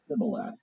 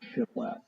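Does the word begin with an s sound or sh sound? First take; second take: s; sh. First: The word begins with an s sound. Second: The word begins with a sh sound. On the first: The speaker is from Ephraim. "they just used an S sound" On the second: The speaker is from Gilead. "with a sh sound on the front of it"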